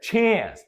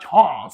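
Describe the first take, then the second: First: It is said with an American accent. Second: It is said with a British accent. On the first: The speaker calls it right. "We're talking American, lazy English here" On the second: The speaker calls it wrong. "not chance, advance. It's British"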